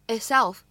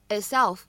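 First: The t is unreleased and barely heard. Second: The t is unreleased and barely heard.

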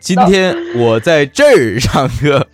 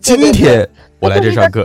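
First: The stress is on 在这儿. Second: The stress is on 今天.

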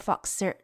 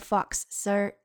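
First: The two s sounds merge into one. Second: Both s sounds are pronounced separately. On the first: The speaker calls it right. "念成Mr. Fox Sir 就可以了" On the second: The speaker calls it wrong. "就不用念成"

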